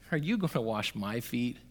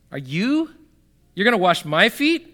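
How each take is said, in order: First: Said in the usual way. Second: Higher, rising disbelief on "my feet"; incredulous question. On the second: Acted. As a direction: act out Peter balking at the offer. Replaying Peter's question in disbelief.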